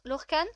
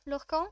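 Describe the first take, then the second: First: Lorcan ending in a sounded n; tentative Lorcan with rising end, n pronounced; trying a pronunciation. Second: Lorcan with a French nasal ending; tentative Lorcan, last vowel nasal, questioning; trying a pronunciation. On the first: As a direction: say Lorcan as "lor-kann", questioning. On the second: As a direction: say Lorcan as "lor-kan", n silent. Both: Shown as a demonstration. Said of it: "Je sais pas comment ça se prononce".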